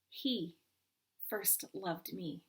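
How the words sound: The stress falls on the word he. "Emphasize the first"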